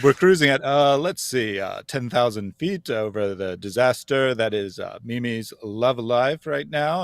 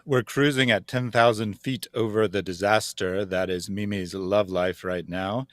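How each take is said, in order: First: It is said with many hesitant uhs. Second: It is said smoothly without hesitations.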